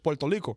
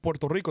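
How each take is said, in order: First: The R in Rico sounds like an L. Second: The R in Rico sounds like an R. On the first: "Like it sounds like an L" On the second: "it's not Puerto Rico"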